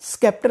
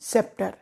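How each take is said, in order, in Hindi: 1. s के बाद k की आवाज़ आती है। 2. s के बाद कोई k की आवाज़ नहीं आती।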